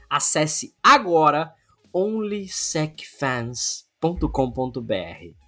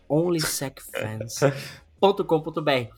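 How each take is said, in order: First: Said in the usual way. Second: Sultry narrator. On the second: Shown as a demonstration. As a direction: breathe it out slowly and seductively. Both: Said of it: "Vou até falar com uma voz sensual".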